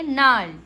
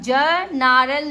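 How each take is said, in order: First: The word begins directly with the n sound. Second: A g sound is spoken before the n. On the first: The speaker calls it right. "इसको क्या पढ़ेंगे? नाल" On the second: The speaker calls it wrong. "ज नारल नहीं पढ़ेंगे"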